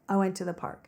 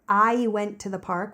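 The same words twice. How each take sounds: First: The word I is one flat, casual vowel. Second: The word I glides between two vowel sounds. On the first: "We say like" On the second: "So we don't say"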